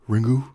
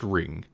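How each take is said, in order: First: It ends with an added oo vowel sound. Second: It ends on the ng sound, no vowel. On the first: The speaker calls it wrong. "stupid American, uh, I apparently kind of insulting pronunciation of Ringu" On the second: The speaker calls it right. "you just don't say the U. It's just Ring"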